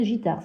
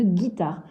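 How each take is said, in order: First: Gitare with a soft J sound, like girafe; wrong soft g. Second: Guitare with a hard G, like gâteau; correct hard g. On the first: Teacher contrasts the wrong reading for the class, soft J sound. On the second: Teacher gives the right reading to the class, hard G. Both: Shown as a demonstration. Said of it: "le mot qui existe".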